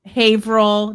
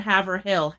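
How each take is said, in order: First: "Haverhill" as HAY-vrull, two syllables; local pronunciation. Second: "Haverhill" as HAV-er-hill, three syllables; spelled-out pronunciation. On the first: Boston-area pronunciation set against spelling. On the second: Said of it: "not Haverhill". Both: Shown as a demonstration.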